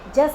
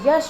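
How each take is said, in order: First: The word begins with a j sound. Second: The word begins with a y sound. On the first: The speaker calls it wrong. "जस नहीं होता" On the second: The speaker calls it right. "यश होता है"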